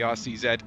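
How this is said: The final letter is named the non-American way. It suits the rest of the world. "I can go back to calling it the R C Z"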